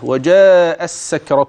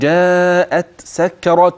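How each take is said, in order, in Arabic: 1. تندمج التاء في صوت سين مشددة. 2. تُنطق التاء واضحة قبل السين. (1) "أتيت بسين مشددة" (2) "سوف تتخلص التاء من السين بلطف ورقة"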